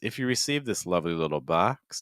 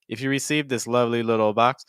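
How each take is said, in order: First: The pitch starts high, then drops for the second phrase. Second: The pitch stays level and the words run together. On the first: The speaker calls it right. "do you hear how the pitch kind of changes?" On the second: The speaker calls it wrong. "If the pitch doesn't change, it becomes"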